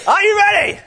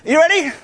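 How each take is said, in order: First: Even higher, louder rally call; all-out hype yell; bigger rally shout. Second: High, loud rally question; rally shout. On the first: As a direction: push it further for the crowd. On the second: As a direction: fire up the crowd. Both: Shown as a demonstration. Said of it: "there needs to be a little bit more".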